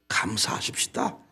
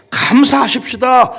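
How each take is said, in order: First: Soft, almost unvoiced "감사하십시다"; breathy hushed "감사하십시다"; quiet exhortation. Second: Slow, ringing "감사하십시다"; stretched proclaiming "감사하십시다"; loud exhortation. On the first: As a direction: murmur "감사하십시다" to yourself. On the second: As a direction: call out "감사하십시다" to the church. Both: Shown as a demonstration.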